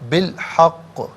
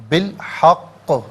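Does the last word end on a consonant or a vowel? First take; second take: consonant; consonant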